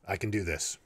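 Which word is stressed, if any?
none. No word stands out; the delivery is flat.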